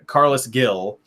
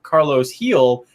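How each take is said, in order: First: The surname starts with a hard G sound. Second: The surname starts with an H sound. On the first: The speaker calls it wrong. "G I L" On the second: The speaker calls it right. "who's this heel guy?"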